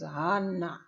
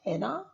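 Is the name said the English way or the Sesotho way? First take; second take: Sesotho; English. First: The name has the original Sesotho pronunciation. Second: The name has the usual English pronunciation. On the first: The speaker calls it right. "but the correct uh, pronunciation is Hannah" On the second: The speaker calls it wrong. "I know we pronounce it as Hannah"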